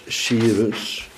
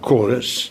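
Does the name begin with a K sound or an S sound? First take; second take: S sound; K sound. First: The name begins with an S sound. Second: The name begins with a K sound. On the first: This is the usual everyday form of the name. "Dan spreken wij het meestal uit als Cyrus" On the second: This is the form closer to the original Greek. "Maar een C is een K en die Y, die Griekse I, die in Duitsland spreken ze die uit als een U"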